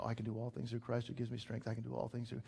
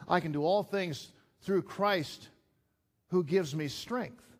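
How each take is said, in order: First: Softer, fast murmured repetition of the verse; quick, soft self-reminder; repeating to himself. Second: Verse preached louder and higher, slow, leaning on all; proclaimed verse. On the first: Shown as a demonstration. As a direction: say it over and over under your breath, quickly. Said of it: "I need to kinda say it over and over". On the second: Acted. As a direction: declare the verse from the pulpit, drawn out.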